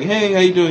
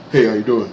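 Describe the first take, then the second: First: Said in the usual way. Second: Lower-pitched mumbled greeting; low-key acquaintance. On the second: Retold or imitated. Church acquaintance answering a greeting, low and offhand. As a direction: imitate a man replying low and unbothered.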